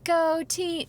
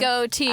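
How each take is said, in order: First: It is said in a high voice. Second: It is said in a low voice.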